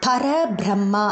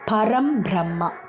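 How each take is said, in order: First: The first word ends in a vowel without 'm'. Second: The first word ends with a clear 'm' sound. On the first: It means something with no address. The speaker calls it wrong. "பர பிரம்மா அப்படி சொல்லக்கூடாது" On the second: It means the ultimate. The speaker calls it right.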